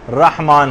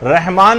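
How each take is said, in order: First: رحمان as rahman, open a and throat ح; correct rah. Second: رحمان as rehman, light h; wrong everyday reh. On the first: Teacher giving the right form, careful pronunciation. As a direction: say رحمان with a deep breathy ح. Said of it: "رحمان ہے". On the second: Teacher rejecting the common form, everyday pronunciation. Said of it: "رحمان نہیں ہے". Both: Shown as a demonstration.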